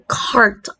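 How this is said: The r sound after the vowel is pronounced. This is the American way of speaking. "R sound is retained before consonants"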